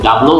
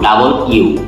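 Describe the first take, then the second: First: It ends with an 'oh' sound, 'double-o'. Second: It ends with a 'you' sound, 'double-you'. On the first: The speaker calls it wrong. "ডাবলও আমরা বলবো না" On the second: The speaker calls it right. "আমরা বলবো ডাবল ইউ"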